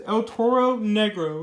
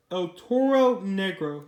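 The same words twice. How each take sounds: First: Said in the usual way. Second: "El Toro Negro" drawn out slowly, word by word; slow, careful "El Toro Negro"; careful pronunciation. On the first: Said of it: "trying to pronounce this right". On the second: Shown as a demonstration. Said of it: "I'm trying to pronounce this right".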